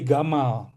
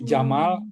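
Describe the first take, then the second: First: The name begins with a hard G sound. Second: The name begins with a J sound.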